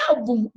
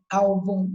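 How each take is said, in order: First: Álbum mis-stressed as al-BUM; stress on final syllable. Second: Álbum said as AL-bum; stress on first syllable. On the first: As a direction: put the weight wrongly on the end of álbum. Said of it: "E não é álbum". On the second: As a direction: hit the first syllable of álbum, weak ending. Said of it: "é álbum". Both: Shown as a demonstration.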